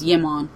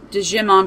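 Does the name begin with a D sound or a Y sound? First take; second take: Y sound; D sound. First: The name begins with a Y sound. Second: The name begins with a hard D sound. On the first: The speaker calls it right. "I think it's Yimon" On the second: The speaker calls it wrong. "I always called it Digimon"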